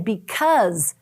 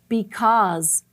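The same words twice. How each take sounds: First: The stressed vowel is not an 'ah' sound. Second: The stressed vowel is an 'ah' sound. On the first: The speaker calls it wrong. "We kind of say this word wrong" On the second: The speaker calls it right. "really the correct way to say it is because. Do you hear the ah?"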